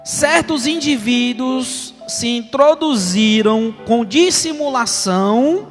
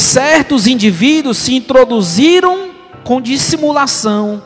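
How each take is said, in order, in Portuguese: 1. É lida devagar, com pausas intencionais. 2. É lida em ritmo normal de leitura.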